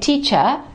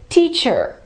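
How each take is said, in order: First: The final R is silent. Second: The final R is clearly pronounced. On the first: The speaker calls it wrong. "Don't say teacher" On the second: The speaker calls it right. "make sure that you clearly pronounce it"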